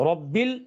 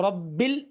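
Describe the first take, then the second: Both takes have the same delivery.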